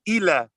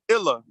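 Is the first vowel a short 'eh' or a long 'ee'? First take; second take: long ee; short eh. First: The first vowel is an 'ee' sound. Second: The first vowel is a short 'eh' sound. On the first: This is how the speaker's own group says it. "we know that the I is an E" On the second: This is how some other dialects say it. "some people pronounce the I short, like eh"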